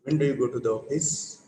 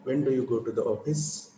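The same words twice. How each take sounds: First: "When do you go to the office?" with the voice stepping down on "office"; falling tune on a WH question. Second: "When do you go to the office?" said so the pitch drops on "office"; falling tune, voice down on office. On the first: Teacher to class, modelling WH question with falling tune. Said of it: "how am I pronouncing it?". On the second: Teacher repeating the example so students hear falling tune. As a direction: let "office" take your voice down. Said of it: "That word takes you down". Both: Shown as a demonstration.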